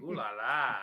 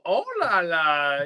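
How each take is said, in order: First: The first word has an 'ooh' vowel. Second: The first word has an 'oh' vowel. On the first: The speaker calls it wrong. "not "ooh la la."" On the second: The speaker calls it right. "Even better"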